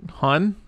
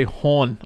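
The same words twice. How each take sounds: First: Said in the usual way. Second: "hon" with a rounded Baltimore vowel; Baltimore-accented "hon". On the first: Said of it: "which is like "hun". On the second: Shown as a demonstration. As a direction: draw "hon" toward "hawn". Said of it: "they say "hon" a lot".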